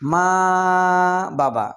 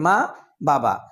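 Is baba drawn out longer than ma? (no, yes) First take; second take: no; yes. First: Baba is not held longer than ma. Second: Baba is held a bit longer than ma. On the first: The speaker calls it wrong. "আমরা এইভাবে উচ্চারণ করি? নিশ্চয়ই না।" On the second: The speaker calls it right. "বাবাকে আমরা তার চেয়ে একটু বেশি সময় উচ্চারণ করি"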